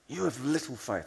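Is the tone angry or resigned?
angry. It is said in an angry tone.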